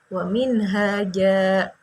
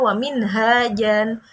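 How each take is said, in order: First: The last word ends with a lengthened vowel, no n. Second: The last word ends with a short vowel plus n. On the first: The reciter stops at the end of the verse. "bacanya seperti fathah biasa dan panjangnya seperti panjang mat tabi tabi'i" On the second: The reciter keeps going without stopping here. "sebelum dia berwakaf kan itu bacanya"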